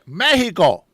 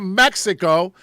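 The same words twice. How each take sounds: First: The middle consonant is an h sound. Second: The middle consonant is a ks sound. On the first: "they pronounce it with a J, which has the H sound" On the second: "They keep spelling it Mexico"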